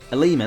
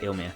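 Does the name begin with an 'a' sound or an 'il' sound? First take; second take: a sound; il sound. First: The name begins with an 'a' sound. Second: The name begins with an 'il' sound. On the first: The speaker calls it right. "that's it" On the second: The speaker calls it wrong. "I used to say Ilmia"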